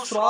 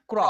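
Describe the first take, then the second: First: স্র with an s joined to r; wrong CR sound. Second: ক্র with a hard k joined to r; the hard-c reading, ক্র; correct CR sound. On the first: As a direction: say স্র with s in place of hard k. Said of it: "স্র sound উচ্চারণ হবে না". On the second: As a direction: say ক্র with k, not s. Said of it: "উচ্চারণটা হয়ে যাবে ক এর মতো". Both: Shown as a demonstration.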